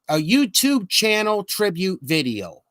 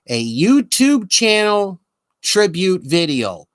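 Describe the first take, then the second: First: It is said at normal speed. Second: It is said slowly.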